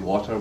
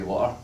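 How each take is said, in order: First: The middle T is a clear T. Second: The middle T is a glottal stop.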